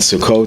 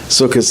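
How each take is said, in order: First: It is said in the Sephardic pronunciation. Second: It is said in the Ashkenazic pronunciation. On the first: This is the form used in Israel. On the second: This is the form the speaker grew up with.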